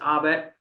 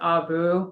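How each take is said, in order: First: The name is pronounced in an English way. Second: The name is pronounced in a French way. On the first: This is the everyday anglicized pronunciation. "Where it's English" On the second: This is the original technical pronunciation. "if you were to say it the French way"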